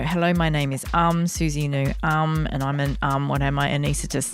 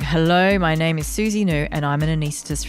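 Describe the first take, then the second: First: It stalls repeatedly with um fillers and pauses. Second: It flows smoothly with no filler sounds. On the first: The speaker sounds unsure of themselves. The speaker calls it wrong. "like no" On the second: The speaker sounds confident and slick. The speaker calls it right. "No ums in there, no clicks"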